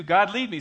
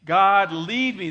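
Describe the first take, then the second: First: God, lead me called out high and loud; called-out prayer line. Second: God, lead me drawn out slow and loud; slow shouted group prayer; slow loud unison. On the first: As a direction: shout it for the room to repeat. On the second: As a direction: lead the crowd saying it together, slowly. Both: Shown as a demonstration. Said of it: "Say it with me".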